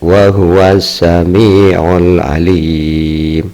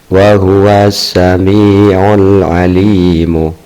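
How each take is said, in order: First: The last word ends without its final vowel. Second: The last word ends with a short final vowel. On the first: This reading shows the pause rule for recitation. "Yang kedua dengan waqaf adalah tajwidnya" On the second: This reading shows the grammatical case ending. "pertama tanpa wakof"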